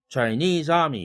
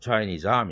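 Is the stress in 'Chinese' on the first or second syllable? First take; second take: second; first. First: Chinese is stressed on its second syllable. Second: Chinese is stressed on its first syllable. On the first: The speaker calls it wrong. "이렇게 하면 리듬이 안 생기니까" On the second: The speaker calls it right. "이동이 생긴 것입니다"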